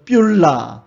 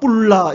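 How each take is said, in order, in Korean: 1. b 소리에 y 활음이 붙어서 시작해요. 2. 된소리 pp로 시작하고, 활음은 없어요. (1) "이거는 뷸라" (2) "어떤 사람은 헵시바 뿔라 이러는데 뿔라는 거 아니에요"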